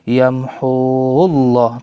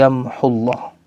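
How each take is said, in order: First: The vowel before llah is held long. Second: The vowel before llah is cut short. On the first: The speaker calls it wrong. "bukan yamhullah" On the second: The speaker calls it right. "tapi yamhullah"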